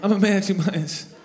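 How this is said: It is said earnestly, with real emotion.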